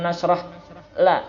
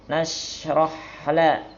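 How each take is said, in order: First: There is a break before the final syllable. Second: The syllables flow together without any break. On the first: The speaker calls it wrong. "dari ha ke lam langsung, nggak ada jeda, bukan alam nashrah la" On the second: The speaker calls it right.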